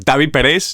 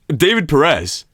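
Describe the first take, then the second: First: The name is pronounced in a Spanish way. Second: The name is pronounced in a plain English way.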